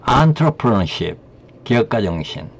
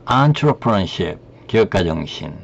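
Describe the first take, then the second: No difference in how they are said.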